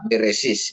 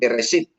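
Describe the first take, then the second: First: The word ends with an s sound. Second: The word ends with a t sound. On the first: "mereka beresis gitu ya" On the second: "Kalau kita katakan nanti beresit ya"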